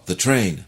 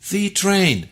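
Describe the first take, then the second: First: The article is short, weak and unstressed. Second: The article is full, long and stressed.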